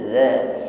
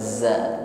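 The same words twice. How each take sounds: First: The consonant is said softly without any hiss. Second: The consonant is said with a hissing sound. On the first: The speaker calls it right. "za lembut pengucapan huruf zal tanpa diiringi dengan bunyi desis" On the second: The speaker calls it wrong. "bukan za"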